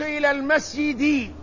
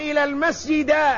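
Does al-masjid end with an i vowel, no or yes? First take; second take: yes; no. First: The last word ends with an i vowel. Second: The last word ends without an i vowel. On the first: The speaker calls it right. "الاسم الذي يدخل عليه حرف الجر مجرور" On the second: The speaker calls it wrong. "خطأ"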